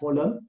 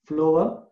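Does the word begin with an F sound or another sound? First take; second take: another sound; F sound. First: The word does not begin with an F sound. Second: The word begins with an F sound. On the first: The speaker calls it wrong. "not phloem" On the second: The speaker calls it right. "because it starts with the F sound"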